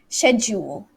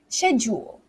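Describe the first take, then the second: First: It is said with a British pronunciation. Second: The same.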